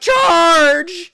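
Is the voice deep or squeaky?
squeaky. It is said in a high, squeaky voice.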